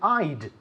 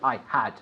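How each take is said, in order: First: The two words merge into one short syllable. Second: Both words are said fully and separately. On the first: The speaker calls it right. "We say I'd" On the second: The speaker calls it wrong. "We don't say I had"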